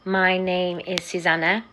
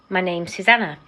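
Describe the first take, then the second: First: The word is is said in full. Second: The word is is contracted to s. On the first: The speaker calls it wrong. "I wouldn't say" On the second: The speaker calls it right. "I'd say"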